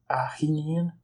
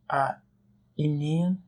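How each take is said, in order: First: An h sound comes before the vowel. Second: The noun starts directly with a vowel. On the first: The daughter belongs to a woman. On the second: The daughter belongs to a man.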